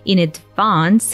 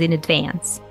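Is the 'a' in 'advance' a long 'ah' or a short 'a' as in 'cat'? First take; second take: long ah; short a. First: The 'a' in 'advance' is a long 'ah' sound, as in British English. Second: The 'a' in 'advance' is a short 'a' sound, as in American English. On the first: The speaker calls it right. "instead of in advance" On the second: The speaker calls it wrong. "he makes this slip, yeah, makes this mistake ... he says in advance"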